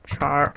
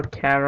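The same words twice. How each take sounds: First: "char" with a ch sound, as in charcoal; alternative pronunciation. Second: "char" with a hard k, like "care"; "char" pronounced "kair"; alternative pronunciation. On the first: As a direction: say "char" to start like "chair" and rhyme with "car". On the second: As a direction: say "char" as the start of "character". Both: Shown as a demonstration. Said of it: "or however you say it".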